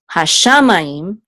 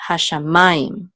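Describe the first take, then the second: First: Hashamayim with the stress too early; hashamayim, misplaced accent; wrong stress. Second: Hashamayim stressed on ma; hashamayim, accent on ma; right stress. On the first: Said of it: "It's not". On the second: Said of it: "the tipcha is under ma". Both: Shown as a demonstration.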